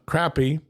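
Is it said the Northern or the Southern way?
Southern. It is said the Southern US way.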